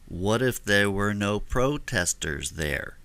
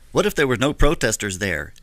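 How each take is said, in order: First: It is said slowly and drawn out. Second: It is said at normal speed.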